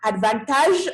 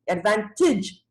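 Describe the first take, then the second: First: The final syllable has a full 'age' vowel. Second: The final syllable is reduced, like 'itch'. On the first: The speaker calls it wrong. "The word is not advantage" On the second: The speaker calls it right. "itch, itch"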